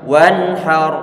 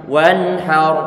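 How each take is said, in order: No difference in how they are said.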